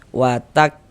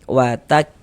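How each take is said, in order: No difference in how they are said.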